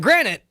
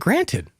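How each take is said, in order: First: The T sound in the middle is dropped. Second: The T sound in the middle is clearly pronounced. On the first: "you say granite" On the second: "pronounce the T in granted"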